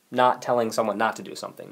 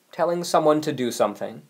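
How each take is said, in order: First: Not stressed and pulled down, the first word leaning hard. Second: Said in the usual way. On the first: Shown as a demonstration. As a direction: lean on "not" to flag the opposite. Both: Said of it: "this is the opposite here".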